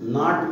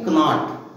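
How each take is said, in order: First: The word starts with an n sound, no k. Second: The word starts with a k sound before n. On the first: The speaker calls it right. "नाट बोला जाएगा" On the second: The speaker calls it wrong. "न कि कनाट"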